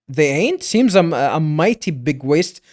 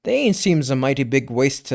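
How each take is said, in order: First: "they ain't?" rising as a question, then a break. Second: Said in the usual way. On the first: Shown as a demonstration. Caretaker questioning the horns, rising on "they ain't?". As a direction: lift "ain't" into a question before "Seems".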